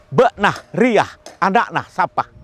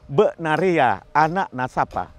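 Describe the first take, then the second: First: Syllables are clipped abruptly with final breathy h. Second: Every syllable is said smoothly, as written. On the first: This is how a neighbouring dialect sounds. "dialek ini akan berubah menjadi agak menyentak" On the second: This is how the most refined local dialect sounds. "cara pengucapan antara bahasa lisan dengan bahasa tulis itu sama"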